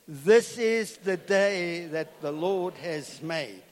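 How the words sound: It is said with heartfelt enthusiasm.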